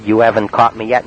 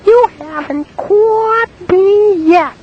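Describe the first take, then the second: First: Said in the usual way. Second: Very high, slow singsong taunt; a prank caller taunting the woman in falsetto. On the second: Retold or imitated. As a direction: tease her in a squeaky falsetto. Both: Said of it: "Yeah, like that".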